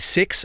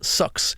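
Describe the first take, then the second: First: It is said in an Australian accent. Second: It is said in a New Zealand accent.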